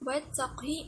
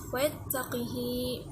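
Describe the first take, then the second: First: The q runs straight into a short h. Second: An 'i' follows the q, and the h-vowel is long.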